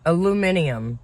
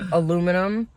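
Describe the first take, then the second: First: It is said with five syllables, British style. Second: It is said with four syllables, American style. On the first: "how they say it" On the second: "Like we say"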